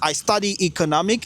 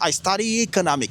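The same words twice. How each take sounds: First: Study and economic are said as separate words. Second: The final vowel of study runs into economic. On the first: The speaker calls it wrong. "Plutôt que de dire" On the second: The speaker calls it right. "tu diras ... on va la connecter à l'autre voyelle de economic"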